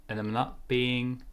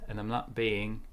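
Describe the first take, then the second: No difference in how they are said.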